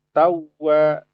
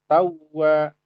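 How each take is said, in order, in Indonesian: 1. Bunyi w yang dobel diucapkan dengan sedikit penekanan. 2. Bunyi w yang dobel diucapkan dengan sedikit penekanan.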